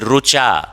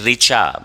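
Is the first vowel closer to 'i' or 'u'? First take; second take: u; i. First: The first vowel sounds like 'u'. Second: The first vowel sounds like 'i'. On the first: This is the Maharashtra and Gujarat pronunciation. "They say" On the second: This is the common Hindi pronunciation. "like we say"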